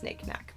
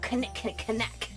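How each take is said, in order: First: The initial K sounds are silent. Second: The initial K sounds are pronounced. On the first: "I know it's knick-knack" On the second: "that's not as fun if you don't pronounce the K"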